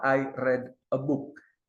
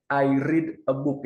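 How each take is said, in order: First: Read is pronounced as its past-tense form. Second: Read is pronounced as its present-tense form. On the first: The action happened in the past. "yang bawah" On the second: The action happens in the present. "yang atas itu bentuknya termasuk present tense"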